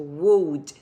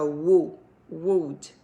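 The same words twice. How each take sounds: First: "would" said slowly without the O sound, like "ud"; teacher slowly shows "would" without the O vowel. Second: "wo-" then "would" with a U vowel like "wud"; U sound of would. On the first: Teacher shows students how to say "would". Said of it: "Eu vou falar como se fosse o L D". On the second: Teacher models the U vowel in "would". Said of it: "E o som do U mesmo faz assim". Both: Shown as a demonstration.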